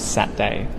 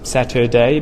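First: The word is said with two syllables. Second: The word is said with three syllables. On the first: "we turn that into two syllables" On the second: "instead of three syllables"

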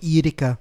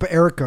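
First: The name is said with a Belgian pronunciation. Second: The name is said with an American pronunciation. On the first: "I like to pronounce it very, very Belgian" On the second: "if you just English make it Americanized"

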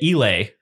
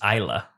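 First: The word ends in an 'ay' sound. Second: The word ends in an 'uh' sound. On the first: The speaker calls it wrong. "we've been pronouncing it Elay" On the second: The speaker calls it right. "the correct pronunciation turns out is Isla"

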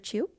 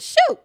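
First: The name is said as chu, without the shoot sound. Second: The name is said like the word shoot. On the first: The speaker calls it right. "my bad" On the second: The speaker calls it wrong. "I'm saying shoot"

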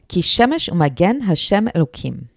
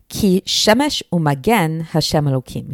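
First: The verse is read at normal speed. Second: The verse is read more slowly.

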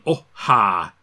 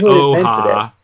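First: A short catch separates the two syllables. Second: The two syllables run together without a break.

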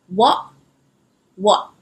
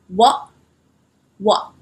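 The two takes are said the same way.

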